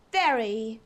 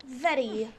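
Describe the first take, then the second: First: Said in the usual way. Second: Very with a crisp British R. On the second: Shown as a demonstration. Streamer correcting herself, very said the posh British way. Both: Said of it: "or rather".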